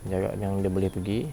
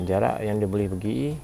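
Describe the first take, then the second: No difference in how they are said.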